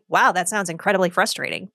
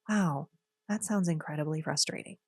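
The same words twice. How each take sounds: First: The tone sounds flat and insincere. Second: The tone sounds warm and sincere. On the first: The speaker calls it wrong. "And don't say" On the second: The speaker calls it right. "You have to say, ... You have to really work on your tone"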